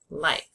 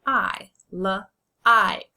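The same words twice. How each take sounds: First: Said in the usual way. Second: Like split into l and ike; segmented sounds. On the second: Shown as a demonstration. Teacher splitting like into sounds for the class. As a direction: break the word into its sounds. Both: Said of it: "Say its name".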